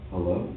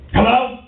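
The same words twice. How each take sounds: First: Low, soft, puzzled hello; subdued answer. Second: Loud, raised-pitch phone hello; worked up. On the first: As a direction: answer the phone quietly, caught off guard. Other party answers the worked-up call. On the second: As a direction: pick up the phone spoiling for a fight, acted. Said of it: "You get on the phone all worked up". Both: Acted.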